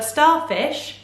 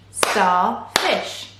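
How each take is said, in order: First: Said in the usual way. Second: "starfish" in two separate beats, star, fish; split into syllables. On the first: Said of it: "chunks of sound that make up". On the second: Shown as a demonstration. Teacher showing two syllables, "starfish" split in two. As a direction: break "starfish" apart with a gap after star. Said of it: "Two syllables again".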